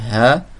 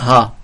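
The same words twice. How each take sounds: First: The h sound is said plainly, not emphatic. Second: The h sound is said emphatically. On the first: The speaker calls it right. "il n'est pas emphatique, on dit ha" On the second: The speaker calls it wrong. "on ne dit pas ha"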